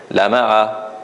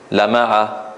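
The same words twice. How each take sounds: Both takes have the same delivery.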